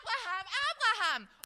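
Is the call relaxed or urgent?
urgent. The name is called out in an urgent way.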